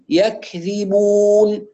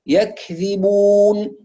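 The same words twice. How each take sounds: No difference in how they are said.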